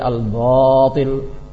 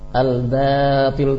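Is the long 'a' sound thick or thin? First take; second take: thick; thin. First: The long 'a' is said thick and heavy. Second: The long 'a' is said thin and light. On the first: The speaker calls it wrong. "tidak boleh" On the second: The speaker calls it right. "jadi tipis"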